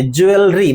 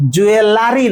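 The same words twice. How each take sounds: First: জুয়েলারি shortened to juel-ri; correct pronunciation. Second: জুয়েলারি with an extra "la", jue-la-ri; wrong pronunciation. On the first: Teacher contrasting it with the wrong form, correct pronunciation. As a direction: drop the "a" after l in জুয়েলারি: juel-ri. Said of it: "মানে ইটা থাকলো না". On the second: Teacher ruling out the usual form, wrong pronunciation. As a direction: lean on the unwanted "la" in জুয়েলারি. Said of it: "জুয়েলারি নয়". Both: Shown as a demonstration.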